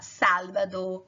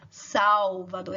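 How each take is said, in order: First: The L is pronounced as a clear L. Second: The L is pronounced like a U sound. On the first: "em espanhol você fala Salvador, que o L tem um som de L mesmo" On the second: "Em português a gente fala Salvador, esse L tem um som de U"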